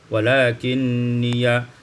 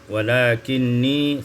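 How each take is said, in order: First: The word ends with an added ya syllable. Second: The word ends on a long i.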